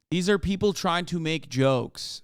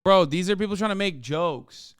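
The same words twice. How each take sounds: First: "These are people trying to make jokes" said slowly, each word pressed; slower, insistent restatement of "These are people trying to make jokes"; slow emphatic repeat. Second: Said in the usual way. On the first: Shown as a demonstration.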